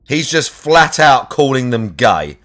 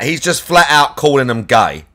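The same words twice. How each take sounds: First: Slow emphatic repeat. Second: Said in the usual way. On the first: Shown as a demonstration. Streamer repeats his point to chat, slow and deliberate. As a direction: drag it out word by word to drive it home. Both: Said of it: "repeats the line".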